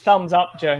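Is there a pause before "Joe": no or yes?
yes. There is a short pause before "Joe". Joe is being addressed with a friendly thumbs up. The speaker calls it right. "There's supposed to be a comma there. That's thumbs up, Joe"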